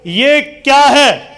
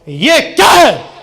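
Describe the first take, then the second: First: It is asked as a plain question. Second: It is said in an angry tone.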